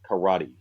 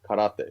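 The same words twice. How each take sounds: First: It is said with an English pronunciation. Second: It is said with a Japanese pronunciation. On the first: "You know, like the Karate Kid" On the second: "if you heard the, the Japanese, right, is is karate"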